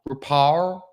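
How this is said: The name is said with Japanese pronunciation. "It's how you say it in Japanese"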